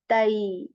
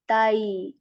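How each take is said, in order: First: The vowel glides from 'a' into 'y'. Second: The same.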